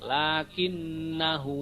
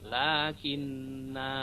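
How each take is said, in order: First: The final vowel is short, running into the next word. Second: The final vowel is long, with a stop after it. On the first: The reading continues without stopping. "kalau dibaca wasol itu dibaca pendek" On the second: The reading stops on this word. "kalau di berhenti di lakinna maka menjadi mat"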